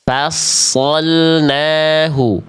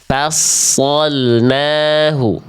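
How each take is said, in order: Both takes have the same delivery.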